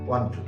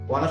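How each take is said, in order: First: Both words are said fully and separately. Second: The words are blended into one short word. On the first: "ওয়ানা শব্দ অর্থ হচ্ছে ওয়ান টু" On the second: "ওয়ানা শব্দ"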